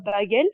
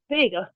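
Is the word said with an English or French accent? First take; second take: French; English. First: It is said with a French accent. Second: It is said with an English accent.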